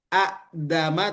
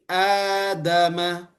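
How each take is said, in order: First: The first vowel is said short, not lengthened. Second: The first vowel is lengthened to two counts. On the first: The speaker calls it wrong. "tidak dibaca adama" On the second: The speaker calls it right. "tapi adama"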